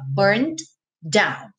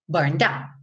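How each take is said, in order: First: Two separate D sounds are heard. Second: The two D sounds merge into one. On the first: "D, D" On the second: "Só vou nesse D uma vez"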